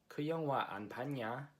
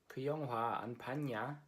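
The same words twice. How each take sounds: No difference in how they are said.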